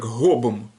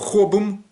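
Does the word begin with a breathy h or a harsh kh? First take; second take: breathy h; harsh kh. First: The first sound is a soft, breathy h. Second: The first sound is a harsh, scraping kh. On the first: This is the classic textbook reading. "Это украинское такое г. Вот, на выдохе" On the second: This is how the speaker personally says it. "я говорю хобом"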